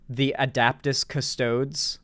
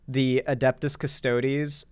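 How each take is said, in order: First: The second syllable is said as 'dap'. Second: The second syllable is said as 'dep'. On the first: Someone else said it this way. The speaker calls it wrong. "as uh, the Adaptus Custodes" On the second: This is the standard name. The speaker calls it right. "pronouncing the um, the Adeptus Custodes"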